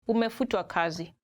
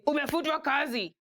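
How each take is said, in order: First: It is said in a gentle, polite tone. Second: It is said in a blunt, harsh tone.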